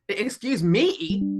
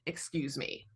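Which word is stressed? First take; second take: me; excuse. First: The stress is on the word me. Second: The stress is on the word excuse.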